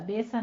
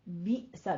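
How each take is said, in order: First: The word flows smoothly with no catch inside. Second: A sharp catch breaks the word after the first vowel. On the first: The speaker calls it wrong. "बेसा नहीं है" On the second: The speaker calls it right. "बी सा झटका दें थोड़ा सा"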